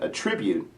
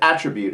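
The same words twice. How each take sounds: First: It is said with the verb pronunciation. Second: It is said with the noun pronunciation. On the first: It means to regard as caused by. "different pronunciation. Attribute's a verb" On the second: It names a quality or characteristic. "it's a noun"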